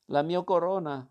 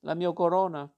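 First: Louder anguished cry for the lost crown; king crying out as his crown rolls into the sea, anguished shout. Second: Louder, higher repeated cry for the crown; king shouting after his crown sinking in the sea, desperate cry. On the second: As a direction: call after it again, even louder. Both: A narrator's reading. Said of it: "gridò".

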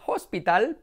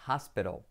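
First: "hospital" louder and higher, HOS-pee-tal; rising "hospital" with Spanish vowels; pronunciación errónea. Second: "hospital" low, as HAS-pero; pronunciación correcta. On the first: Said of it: "pero no". ("hospital" mal dicho, agudo, «jóspital») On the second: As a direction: flap the t in "hospital", dark final l. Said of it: "se dice". ("hospital" grave, «jáspero») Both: Shown as a demonstration.

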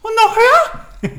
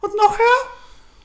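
First: Highest squeal, louder still; even higher. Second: Very high, slow rising squeak; higher and higher. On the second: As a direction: push the voice way up. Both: Shown as a demonstration. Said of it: "Und die wurde immer höher".

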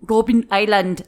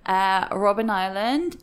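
First: Robben Island in a hammed-up South African Afrikaans accent. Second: Said in the usual way. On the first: Shown as a demonstration. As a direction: Robben Island said with a mock Afrikaans lilt, stress on Robben. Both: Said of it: "sorry for my horrific South African Afrikaans accent there".

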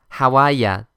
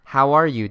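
First: Boston dialect, r dropped in "are"; Boston accent. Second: Said in the usual way. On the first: Shown as a demonstration. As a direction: say "How are ya" like a Bostonian, ending on "ya". (ボストン方言で) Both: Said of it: "ボストンの方言で言うから".

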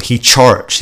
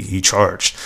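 First: "charged" picked out with amused scorn; mocking emphasis. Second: Solemn, hushed send-up of "charged"; mock serious. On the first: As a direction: relish the word "charged". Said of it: "I love that. It's such a little word". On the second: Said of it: "So serious".

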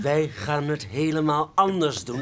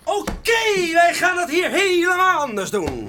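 First: Slow, spelled out, weight on anders; patient repeat stressing anders; slow insistence. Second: High, loud bursting-in announcement; loud grand entrance line; barging in loudly. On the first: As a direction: say it slowly like to a child, leaning on anders. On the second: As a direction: storm in and declare it. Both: Acted. Dat zeg ik toch net?.

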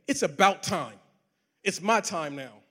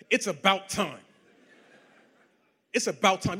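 First: Slow, self-satisfied boast; cocky boast. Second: Boastful, half-laughing; gloating boast. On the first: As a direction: claim the win as yours. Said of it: "I could either go with option A and say". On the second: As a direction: savour the brag with a laugh. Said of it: "Everything in me wanted to say". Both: Retold or imitated.

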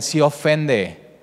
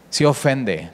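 First: "sí ofende" drawn out very slowly; "sí" heavy and slow, "ofende" trailing; slow stress on sí. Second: Said in the usual way. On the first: Shown as a demonstration. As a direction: lean on "sí" and stretch it.

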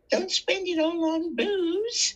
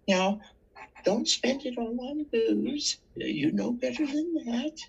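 First: Put-on high, slow little-old-lady voice; sweet old lady. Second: Put-on high little-old-lady voice; sweet old lady. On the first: Old lady handing the panhandler fifty cents, high and slow. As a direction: squeak it out like a kindly old lady scolding. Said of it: "Ladies came by". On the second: Two little ladies warning the panhandler, high and prim. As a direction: play a sweet old lady gently scolding. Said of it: "They put a whole fucking dollar in my box and said".

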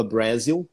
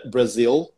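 First: "Brasil" with stress moved to the first syllable; mistaken Brazil. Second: "Brasil" in English, stressed on the second syllable; correct English Brazil. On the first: Teacher demonstrating his old mistake, mispronounced "Brasil". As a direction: say "Brasil" wrongly as BRAH-zil. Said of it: "eu falava Brasil". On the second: Teacher showing what he didn't use to say, correct English "Brasil". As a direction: say "Brasil" as English bra-ZIL. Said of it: "eu não falava Bra". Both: Shown as a demonstration.

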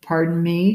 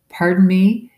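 First: Flat, level politeness. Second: Higher, louder, rising in disbelief; incredulous. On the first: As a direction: say it flatly, unbothered. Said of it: "she said flatly". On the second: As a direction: echo her words in shock. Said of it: "Is that really what she said". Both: A narrator's reading.

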